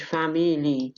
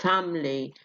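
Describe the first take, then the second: First: "family" as three syllables, "fa-mi-lee"; unreduced, the rejected form. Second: "Family" as two syllables, "fam-lee"; reduced syllable. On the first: Teacher showing what not to say, middle vowel full. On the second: Teacher showing the reduced form, syllable dropped. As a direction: drop the middle vowel of "Family". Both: Shown as a demonstration. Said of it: "مش family".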